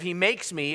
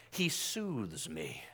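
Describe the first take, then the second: First: Said in the usual way. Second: Very slow, soft, low croon; soothing feel-good. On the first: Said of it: "instead of". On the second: Shown as a demonstration. Preacher mocking a feel-good psalm, soothing hush. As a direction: soothe them, drawing each word out gently. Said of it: "A feel-good psalm would start off".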